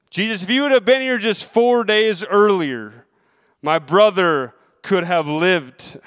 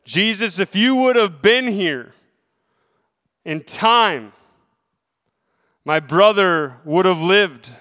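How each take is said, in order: First: Pleading sister. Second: Said in the usual way. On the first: Retold or imitated. Preacher voicing Mary's grief to Jesus, a mild pleading sister. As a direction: plead as the grieving sister would. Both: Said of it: "Both of the sisters made the claim".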